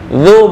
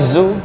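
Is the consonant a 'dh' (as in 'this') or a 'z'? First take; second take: dh; z. First: The consonant is a soft 'th' as in 'this'. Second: The consonant is a buzzing 'z' sound. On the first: The speaker calls it right. "ini zal" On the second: The speaker calls it wrong. "bukan zu"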